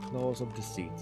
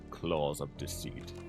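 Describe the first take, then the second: First: It is read in a voice fit for the narrator. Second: It is read in a voice unfit for the narrator. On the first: The speaker calls it right. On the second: The speaker calls it wrong.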